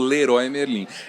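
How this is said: The name is said with Brazilian Portuguese sounds. This is the adapted form used in Brazil. "Aqui a gente abrasileirou, né? Então ficou"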